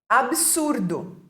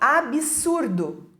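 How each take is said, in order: First: No extra vowel is heard after the b. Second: An extra i vowel is heard after the b. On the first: The speaker calls it right. "que seria a forma correta" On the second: The speaker calls it wrong. "colocando um i onde não tem"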